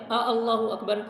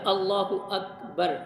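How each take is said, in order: First: An extra glottal vowel comes before Allahu. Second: No extra glottal vowel is added anywhere. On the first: It asks whether God is the greatest. The speaker calls it wrong. "इसका तर्जमा ये है क्या अल्लाह सबसे बड़ा है" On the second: It states that God is the greatest. The speaker calls it right. "तो लिहाजा अल्लाहु अकबर"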